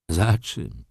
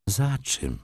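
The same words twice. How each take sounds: First: "Za czym" at ordinary pitch, falling; echoed question. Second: "Za czym" high on "Za", then falling; puzzled question. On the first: Wokulski echoes his friend's question, level "Za czym". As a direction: repeat "Za czym" squarely, without raising the pitch. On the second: Ignacy questions his friend's longing, puzzled high "Za czym". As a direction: ask "Za czym" in a higher, wondering voice. Friend asks what is longed for. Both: A narrator's reading.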